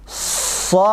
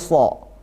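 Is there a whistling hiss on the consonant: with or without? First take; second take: with; without. First: The consonant has a sharp whistling hiss. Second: The consonant has no whistling hiss. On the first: The speaker calls it right. "harus ada shafirnya" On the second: The speaker calls it wrong. "kesalahannya menghilangkan shafirnya"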